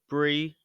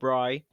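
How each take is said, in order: First: The name sounds like the cheese brie. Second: The name does not sound like the cheese. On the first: The speaker calls it right. "pronounced Brie, like the cheese" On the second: The speaker calls it wrong. "not Bry"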